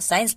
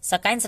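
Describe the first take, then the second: First: No k sound is pronounced after the s. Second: A k sound is pronounced after the s. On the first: The speaker calls it right. "साइंस पढ़ते हैं" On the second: The speaker calls it wrong. "सकाइंस सकाइंस नहीं पढ़ते हैं ना"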